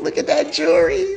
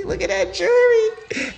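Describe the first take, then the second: First: Admiring high voice. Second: Even higher admiring voice. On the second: Repeats it, higher still. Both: Real, not acted.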